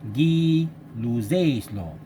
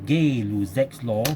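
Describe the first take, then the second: First: The first syllable sounds like 'guy'. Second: The first syllable sounds like 'gay'. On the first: The speaker calls it right. "we pronounce as Guy Guy Luzet" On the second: The speaker calls it wrong.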